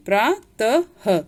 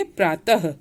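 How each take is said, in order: First: प्रातः very slow, split as प्रा, त, ह; syllable-by-syllable प्रातः. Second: प्रातः as one word, ending in a light ह; joined-up प्रातः. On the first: Teacher showing where ह sounds, प्रातः slowly broken up. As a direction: break प्रातः apart, ending on a clear ह. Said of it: "उसमें उच्चारण आपका ह आना चाहिए". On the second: Teacher answering how we say it, प्रातः joined up. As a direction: say प्रातः unbroken with an audible final ह. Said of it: "तो हम कैसे बोलेंगे?". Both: Shown as a demonstration.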